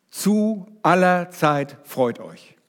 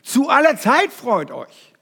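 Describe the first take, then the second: First: Slow, leaning on „zu aller Zeit“ before „freut euch“; stress on zu aller Zeit. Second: „Zu aller Zeit“ pitched higher and slowed, each word hit; stress on ZU ALLER ZEIT. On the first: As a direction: draw out „zu aller Zeit“ deliberately. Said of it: "Die Betonung liegt so mehr mit auf diesen Adverbia". (Betonung auf „zu aller Zeit“, langsam) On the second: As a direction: proclaim „Zu aller Zeit“ with full weight. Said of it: "Das ist die Betonung". („Zu aller Zeit“ hoch und langsam betont) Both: Shown as a demonstration.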